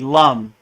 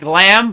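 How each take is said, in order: First: The vowel is a short 'u' sound. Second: The vowel is an open 'a' sound. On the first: The speaker calls it right. "but it's really lum" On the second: The speaker calls it wrong. "it looks like lamb"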